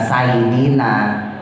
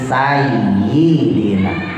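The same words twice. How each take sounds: First: The doubled y sound is weak and unclear. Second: The doubled y sound is clearly held. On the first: The speaker calls it wrong. "bukan sayyidina" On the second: The speaker calls it right. "tapi sayyidina"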